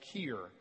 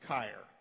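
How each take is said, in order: First: The vowel is not a long I sound. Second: The vowel is a long I sound. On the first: This is how the spelling suggests it is read. The speaker calls it wrong. "that looks like the Welsh Keir" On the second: This is the German pronunciation the parents chose. The speaker calls it right. "E-I makes a long I sound, so Keir"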